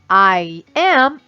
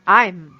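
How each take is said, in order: First: Two separate words are said in full. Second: The words are joined into one short syllable. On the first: "ao invés de eu falar I am" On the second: "eu posso falar I'm"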